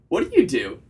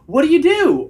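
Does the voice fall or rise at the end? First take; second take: fall; rise. First: The voice falls flatly at the end. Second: The voice rises at the end like a question.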